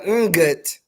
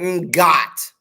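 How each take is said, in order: First: The stress is on the first syllable. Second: The stress is on the second syllable. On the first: It is the usual form of the word. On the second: It is the form used among the speaker's friends.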